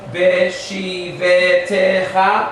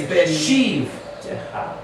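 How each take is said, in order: First: An extra vowel is sounded between v and t. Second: No vowel is sounded between v and t. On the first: The speaker calls it wrong. "Instead of Beshivetecha, no" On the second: The speaker calls it right. "it's Beshiv Techa. The first one is silent"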